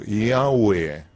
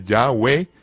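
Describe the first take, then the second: First: Pronunciación correcta de "Yahweh"; correct pronunciation. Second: "Yahweh" read literally with a hard initial y, as in yah-WEH; literal wrong reading. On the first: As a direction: give the proper reading of "Yahweh", drawn out. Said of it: "sino Yahweh". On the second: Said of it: "No literalmente Yahweh". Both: Shown as a demonstration.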